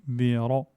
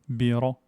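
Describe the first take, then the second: No difference in how they are said.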